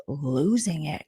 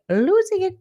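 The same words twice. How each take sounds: First: Said in the usual way. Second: Mock frantic. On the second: Vlogger mocks houseguest, high squealed losing it. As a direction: shriek losing it like she's unhinged. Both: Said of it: "But she's, like".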